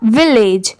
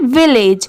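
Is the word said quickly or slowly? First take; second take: slowly; quickly. First: The word is said slowly, part by part. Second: The word is said quickly, in one go.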